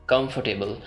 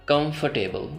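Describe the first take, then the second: The two takes are said the same way.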